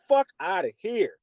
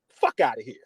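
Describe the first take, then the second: First: Said in the usual way. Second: Whispered fuck outta here; dismissive whisper. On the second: Real, not acted. Podcaster brushing off Denver fans, whispered. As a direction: hiss it under your breath, dismissive.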